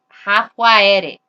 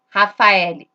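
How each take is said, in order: First: The name is said with Japanese sounds. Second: The name is said with Portuguese sounds. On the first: "como que vai ser em japonês?" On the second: "O nome verdadeiro é Rafael"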